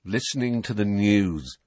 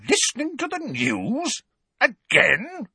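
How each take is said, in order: First: Resigned, matter-of-fact answer; weary understatement. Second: Very high, incredulous echo; outraged disbelief. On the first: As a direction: answer as if tired of explaining. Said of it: "said Harry in a resigned voice". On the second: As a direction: repeat it as an outraged question. Outraged relatives repeat his answer. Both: A narrator's reading.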